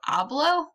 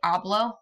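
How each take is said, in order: First: The pitch rises toward the end. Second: The pitch stays level or falls at the end. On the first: It asks whether one does talk. "it goes up towards the end" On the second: It states that one does talk. "I do talk"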